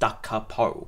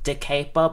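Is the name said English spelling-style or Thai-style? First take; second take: Thai-style; English spelling-style. First: It is said with a Thai-style pronunciation. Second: It is read the English way, as spelled. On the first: The speaker calls it right. "but it's pronounced Dacapo" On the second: The speaker calls it wrong. "English-speaking people, like, call it Dacapo, because I think that's how it's spelt"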